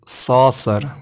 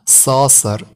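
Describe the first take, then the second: The two takes are said the same way.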